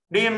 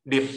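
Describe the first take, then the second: First: 念 held long and high. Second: 念 very short, stopped at the lips. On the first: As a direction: stretch 念 on a level high note. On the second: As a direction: cut 念 off at once. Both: Shown as a demonstration. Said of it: "长音、短音哦".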